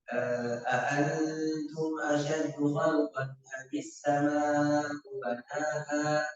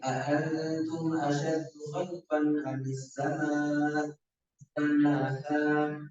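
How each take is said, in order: First: It is read straight through without stopping. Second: It stops after sama'u before the last word. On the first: The whole verse is one single question. "Banyak orang menyambung juga" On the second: The question ends early and the last word is a separate statement. "Kalau kita berhenti di sama"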